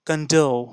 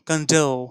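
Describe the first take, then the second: The two takes are said the same way.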